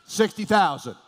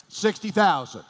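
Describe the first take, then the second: No difference in how they are said.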